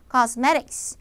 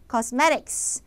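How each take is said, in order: Both takes have the same delivery.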